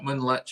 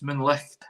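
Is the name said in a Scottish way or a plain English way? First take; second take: plain English; Scottish. First: The name is said the plain English way. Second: The name is said the Scottish way. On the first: The speaker calls it wrong. "It's not Moonlich" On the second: The speaker calls it right. "it's Moonlicht. It's Scottish"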